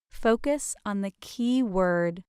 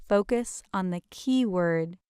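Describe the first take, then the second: No difference in how they are said.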